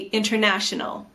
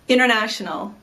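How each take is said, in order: First: The T after the N is fully pronounced. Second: The T after the N is dropped. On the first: "fully pronounce the T" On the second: "just don't say the T"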